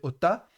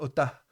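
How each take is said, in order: First: The word ends on a plain vowel, no h. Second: The word ends with a light breathy h. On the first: The final letter is only a vowel marker. "Si c'était une mater lectionis, on dirait ota" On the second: The final letter is a feminine pronoun suffix. "on va le prononcer légèrement avec la présence du mappic"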